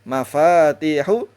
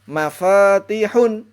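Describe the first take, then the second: First: The word ends on a vowel without n. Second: The word ends with an added n sound. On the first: The speaker calls it right. "Maka cara membacanya mafatihu" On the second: The speaker calls it wrong. "tidak boleh, haram ya"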